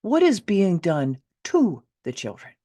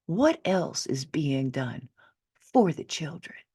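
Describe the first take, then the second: First: Put-on "to the children" hit loud and slightly higher; a louder, pointed reframing on "to"; stress on to. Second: Put-on first take leaning on "for": what else is being done FOR the children; stress on for. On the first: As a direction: reframe it hard, punching "to" in "done to the children". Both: Shown as a demonstration. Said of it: "How about if we ask this instead?".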